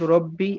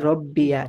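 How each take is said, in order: First: The word ends in a plain long 'ee' sound. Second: The word ends with an added 'ya' sound. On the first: "প্রথমত রব্বি আল্লাহু" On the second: "ইয়ার উপরে জবর দিয়ে পড়া যায়"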